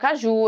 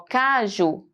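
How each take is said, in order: First: The stress is on the second syllable. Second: The stress is on the first syllable. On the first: "Ou o ju" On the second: "Eu vou usar o K"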